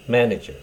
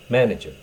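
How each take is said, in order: First: It is said with English pronunciation. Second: The same.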